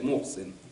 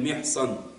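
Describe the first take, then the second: First: The name is pronounced Mohsin, with o and i. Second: The name is pronounced Mehsan, with e and a. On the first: The speaker calls it wrong. "Многие читают Мохсин" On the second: The speaker calls it right. "Правильно читается имя этого сподвижника"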